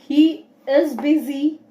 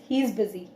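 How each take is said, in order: First: Both words 'he is' are said separately. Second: 'He is' is squeezed into one quick syllable. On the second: "it sounds like we are speaking faster"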